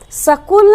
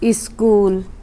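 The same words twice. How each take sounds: First: The word starts directly with the 's' sound. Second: An 'i' vowel is sounded before the 's'. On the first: The speaker calls it wrong. "स्कूल नहीं कह सकते, वो गलत हो जाएगा" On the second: The speaker calls it right. "ये है आधा सा लेकिन इसके पहले हमको ई बोलना पड़ रहा है"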